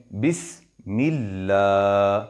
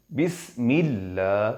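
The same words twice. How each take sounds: First: 'بسم اللہ' with the final a of 'اللہ' held long and slow; lengthened madd. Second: 'بسم اللہ' recited slowly with a long final a; slow lengthened recitation. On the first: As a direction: draw out the last vowel of 'اللہ' for two beats. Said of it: "دو زبر جتنا". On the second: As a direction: stretch 'اللہ' and let it rise. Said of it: "اس جتنا ہم نے اس کو لمبا کر دیا". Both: Shown as a demonstration.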